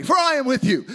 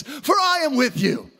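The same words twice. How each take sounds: First: Said in the usual way. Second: Rising preacher's call; preaching shout. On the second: Real, not acted. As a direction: raise the pitch and proclaim it. Preaching at full force.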